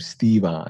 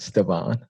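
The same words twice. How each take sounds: First: The E sound is long. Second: The E sound is short. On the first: The speaker calls it right. "you pronounce my name Stevon, ... the E is long" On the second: The speaker calls it wrong. "not Stevon"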